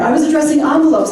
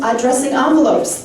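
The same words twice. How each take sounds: First: Higher, louder and quick; excited. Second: Said in the usual way. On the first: Real, not acted. Candidate spots her volunteer in the crowd, excited. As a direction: toss it out with eager energy.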